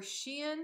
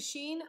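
First: "Shein" split into two syllables, shee-in, rising as a question; two-syllable pronunciation. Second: "Shein" in one syllable, rhyming with green; one-syllable pronunciation. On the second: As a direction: say "Shein" as "sheen". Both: Shown as a demonstration. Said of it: "not quite sure how to pronounce it".

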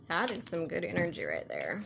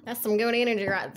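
First: Soft, slipping into a country accent. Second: Half-hearted attempt at a country accent; badly faked country accent, given up midway; fake country accent. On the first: Real, not acted. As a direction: let a country twang slip out, quietly. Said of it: "I had a country accent all of a sudden". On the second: Shown as a demonstration. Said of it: "a fake country accent".

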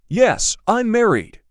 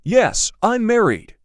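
No difference in how they are said.

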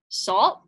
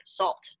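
First: Louder questioning echo rising at the end; Michael doesn't get it yet; puzzled echo. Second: Whispered, low, knowing one-word reply; Mama whispering her answer to her son; hushed answer. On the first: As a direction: son echoing Mama in puzzled surprise. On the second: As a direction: let Mama whisper the secret. Mama answers Michael, smiling. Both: A narrator's reading.

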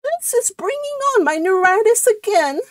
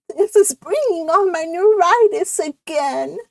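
First: Very high, put-on complaining voice; high-pitched martyred complaint; ailing cousin. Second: High, put-upon character voice; ailing cousin's complaint; complaining cousin. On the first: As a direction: pitch it right up, like a suffering invalid. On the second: Acted. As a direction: moan about it in a high-pitched voice. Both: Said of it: "this is a different voice".

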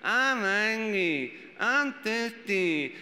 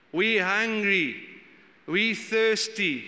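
First: Put-on very slow, drawn-out childish whine; whiny little kid. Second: Slow, drawn-out whine; grumbling. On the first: Parent imitating their whiny kid on a trip, very slow. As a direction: whine like a bored five-year-old in the car. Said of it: "when your kid's like". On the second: Retold or imitated. Preacher mimicking Israelites grumbling in the desert, slow whine. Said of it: "the first thing they do is they grumble".

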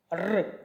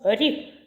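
First: Р as a hard, rolled consonant. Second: Рі with a soft, palatalized R. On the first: Teacher isolating the first sound for children, hard Р. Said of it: "Твердий". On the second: Teacher isolating the first sound for children, soft рі. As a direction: sound рі softly palatalized, tinged with an i. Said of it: "М'який". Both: Shown as a demonstration.

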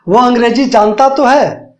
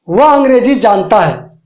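First: तो leaned on, slower, falling after; stress on तो. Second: Said in the usual way. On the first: Shown as a demonstration. Teacher to students, showing emphasis on "तो". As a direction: press down on "तो" in "जानता तो है". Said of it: "जब इसमें बात जोर दे के बोली जाए". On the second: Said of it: "ये सिंपल है".

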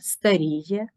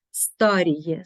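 First: Старіє as стаРІє; stress on second syllable. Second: Старіє as СТАріє; stress on first syllable. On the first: Teacher showing double stress, старіє stressed on РІ. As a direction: lean on РІ in старіє. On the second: Teacher showing double stress, старіє stressed on СТА. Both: Shown as a demonstration. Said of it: "мають подвійний наголос".

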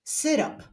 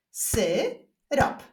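First: Said in the usual way. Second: "Syrop" split into two separate syllables. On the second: Shown as a demonstration. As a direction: clap out "Syrop" with a gap in the middle. ("Syrop" z wyraźną przerwą między sylabami) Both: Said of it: "Zapraszam do wyklaskiwania sylab".

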